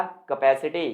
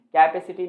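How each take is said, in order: First: कैपेसिटी as kuh-PASS-i-ti; weak first vowel in कैपेसिटी, stress the second syllable; correct pronunciation. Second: कैपेसिटी as KAI-pe-si-ti, full first vowel; wrong pronunciation. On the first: Teacher giving students the right form, correct pronunciation. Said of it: "ये होता है आपका कैपेसिटी". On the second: Teacher saying what it is not, wrong pronunciation. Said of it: "कैपेसिटी नहीं होता". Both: Shown as a demonstration.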